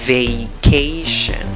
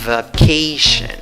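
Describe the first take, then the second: First: The first syllable has a full 'ay' vowel. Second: The first syllable has a weak 'uh' vowel. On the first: "según la primera opción... A en la primera sílaba" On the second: "La otra opción... Hay solo la schwa"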